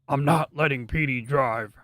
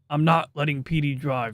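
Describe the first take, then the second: First: It is said in Floral's green guy voice. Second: It is said in his normal voice.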